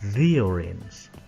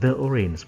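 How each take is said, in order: First: The article is said with a long 'thee' sound. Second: The article is said with a short 'thuh' sound. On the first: The speaker calls it right. "but the orange" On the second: The speaker calls it wrong. "Jadi bukan the orange"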